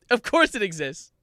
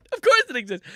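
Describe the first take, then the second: First: Raised, louder exclamation; mild incredulity. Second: Much higher, louder exclamation; exaggerated incredulity. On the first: Real, not acted. Comic finds the lyrics page exists, mild incredulity. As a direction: exclaim it with some disbelief. Mock disbelief, first take. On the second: Comic finds the lyrics page exists, exaggerated incredulity. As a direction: squeal it in comic disbelief. Repeats it with escalated disbelief.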